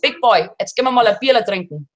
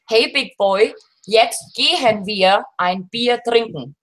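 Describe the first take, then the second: First: It is spoken in a regional German dialect. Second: It is spoken in standard German.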